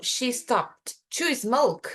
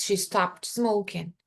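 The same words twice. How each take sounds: First: Slow, deliberate stress on "to"; slow example sentence. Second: Slow example sentence. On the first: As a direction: lean on "to", slowly. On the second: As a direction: model it calmly and slowly. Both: Shown as a demonstration. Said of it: "se eu falo".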